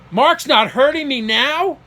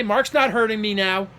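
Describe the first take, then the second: First: Slow, louder echo of "Mark's not hurting me now?", pitched up; incredulous echo. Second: Said in the usual way. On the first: Retold or imitated. Son echoing father's words on the phone, incredulous. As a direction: repeat "Mark's not hurting me now?" slowly as a disbelieving question. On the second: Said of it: "I heard him say".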